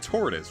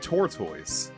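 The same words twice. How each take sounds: First: The ending is reduced to a short 'tus'. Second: The ending is said fully as 'toise'. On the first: The speaker calls it right. "you say tortoise, right?" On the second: The speaker calls it wrong. "You don't say tortoise"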